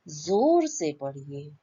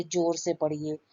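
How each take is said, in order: First: जोर said with a z sound, as zor, a bit slow; correct z sound. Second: जोर said with a hard j, as jor; wrong j sound. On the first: Teacher shows students the right way, जोर with z. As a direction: say जोर with a buzzing z, dot under ज. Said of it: "ज के नीचे देखिए बिंदी लगी हुई है". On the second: Teacher shows students the wrong way, जोर with j. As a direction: demo the wrong जोर: j like in jar. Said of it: "जोर अपन नहीं बोलेंगे". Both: Shown as a demonstration.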